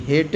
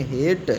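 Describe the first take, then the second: First: "हेट" misread as "hay-tay"; wrong final e sounded. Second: "हेट" as one syllable closing on t; silent final e. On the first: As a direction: voice the final e of "हेट" as an extra syllable. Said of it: "हेट नहीं पढ़ेंगे". ("हेट" को गलत तरह से "हेटे" बोलकर) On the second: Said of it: "क्या पढ़ेंगे". ("हेट" में अंत का ई साइलेंट रखकर) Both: Shown as a demonstration.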